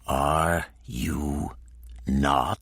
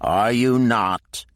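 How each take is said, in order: First: It is said slowly and softly. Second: It is said at normal pace and loudness.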